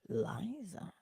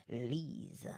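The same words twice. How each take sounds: First: Liza said with an EYE sound; LIE-za reading. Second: Lisa said with an EE sound; LEE-sa reading. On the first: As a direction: slowly try Liza as LIE-za. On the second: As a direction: softly try Lisa as LEE-za. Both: Shown as a demonstration. Trying two readings of a name.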